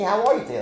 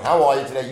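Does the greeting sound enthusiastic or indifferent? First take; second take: enthusiastic; indifferent. First: The greeting sounds warm, lively and genuinely interested. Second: The greeting sounds flat, routine and uninterested. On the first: The speaker truly cares how the listener is. The speaker calls it right. "Like, I really want to know. I really give a shit" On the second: The speaker does not care and is just being polite. The speaker calls it wrong. "Versus I'm just saying"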